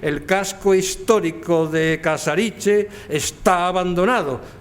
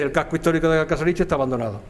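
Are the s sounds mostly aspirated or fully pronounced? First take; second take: fully pronounced; aspirated. First: The s sounds are mostly pronounced as full s. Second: Every s sound is aspirated like a soft h. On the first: "Yo ahora estoy aspirando menos" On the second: "Y he aspirado todas"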